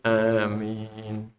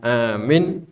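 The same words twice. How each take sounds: First: Both vowels are held the same length. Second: The two vowels have unequal lengths. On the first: The speaker calls it right. "Sama panjangnya ya" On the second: The speaker calls it wrong. "bukan amin"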